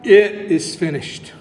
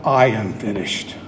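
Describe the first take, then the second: First: Measured proclamation, pitched a little low; restrained cried-out declaration. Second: Dropped very low, well under the preaching voice; not cried out. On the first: Retold or imitated. Preacher quoting Jesus' cry from the cross, restrained declaration. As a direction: declare "It is finished" firmly, without shouting. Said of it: "He cries out". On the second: Acted. Preacher voicing what Jesus doesn't say, very low-pitched. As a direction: sink the pitch right down on "I am finished". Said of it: "He does not cry out".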